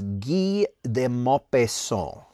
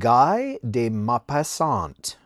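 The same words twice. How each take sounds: First: Guy is pronounced the French way. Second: Guy is pronounced the English way. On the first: The speaker calls it right. "I think that's how you say it" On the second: The speaker calls it wrong. "the first time that I sat down and recorded the story, I called him"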